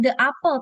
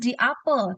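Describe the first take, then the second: First: The word 'the' is said as 'thuh'. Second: The word 'the' is said as 'thee'. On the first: The speaker calls it wrong. "bukan the apple" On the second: The speaker calls it right. "tapi the apple"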